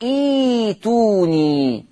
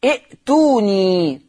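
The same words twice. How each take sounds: First: إيتوني as a long, smooth iii-tuuu-niii with no glottal catch; slow drawn-out demo of إيتوني, hamza replaced by long ee; hamza turned to yaa. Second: ائتوني as i'-tuuu-niii, audible catch after the first vowel; slow teacher's demo keeping the hamza in ائتوني; hamza pronounced. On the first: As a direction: glide through the long first vowel of إيتوني. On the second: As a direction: stretch ائتوني, stopping briefly on the hamza. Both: Shown as a demonstration. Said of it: "تقرأ إيتوني".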